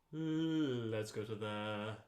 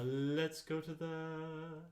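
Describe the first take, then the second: First: Lower, slow intoned lead-in. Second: Higher, slow intoned lead-in. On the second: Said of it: "Use more breath". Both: Shown as a demonstration.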